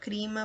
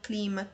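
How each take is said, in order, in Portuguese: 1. A segunda consoante é pronunciada como R. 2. A segunda consoante é pronunciada como L.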